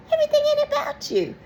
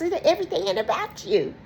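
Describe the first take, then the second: First: Squeaky, fast, laughing mock voice; high mocking squeal with a laugh; mock whiny friend. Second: Said in the usual way. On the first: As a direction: squeal it like a self-absorbed friend. Mocking a self-centred friend.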